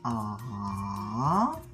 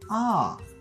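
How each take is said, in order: First: It is said with the third Mandarin tone. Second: It is said with the fourth Mandarin tone. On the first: "Troisième" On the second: "Quatrième"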